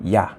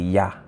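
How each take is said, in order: The two takes are said the same way.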